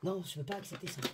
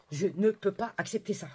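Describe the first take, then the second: First: Said in the usual way. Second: NE PEUX PAS hammered out, higher voice; emphatic refusal. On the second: Real, not acted. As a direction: spell out "Je ne peux pas" word by word, indignant. Repeats her refusal emphatically while annoyed. (« Je ne peux pas » martelé, indigné)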